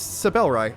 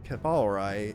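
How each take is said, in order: First: The name begins with a soft S sound. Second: The name begins with a hard K sound. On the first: The speaker calls it right. "Or no, I think it's Sabelrai" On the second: The speaker calls it wrong. "Whenever I see C E B, I'm going to pronounce it as Ke"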